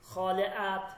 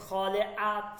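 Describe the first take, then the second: No difference in how they are said.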